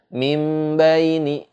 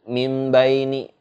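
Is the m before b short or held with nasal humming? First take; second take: held humming; short. First: The m is held with a nasal hum. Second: The m is short, with no nasal hum. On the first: The speaker calls it right. "tapi disertai ada dengungnya" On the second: The speaker calls it wrong. "enggak juga dengan mimbaini gitu, enggak"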